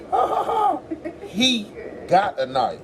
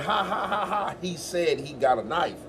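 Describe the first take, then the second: First: Mock laughing, much higher. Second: Laughing through the words; laughing it out, a bit softer; real laugh. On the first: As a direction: cackle it high, drag the end. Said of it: "When did anybody ever hear me say that". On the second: Retold or imitated. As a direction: let the laugh carry the line. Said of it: "I said".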